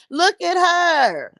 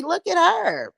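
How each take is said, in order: First: Each word stretched slow and high; slow drawn-out look at her. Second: Emphatic look at her; high, pointed look at her. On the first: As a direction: drag it out, savoring the insult. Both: Shown as a demonstration. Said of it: "repeated look at her".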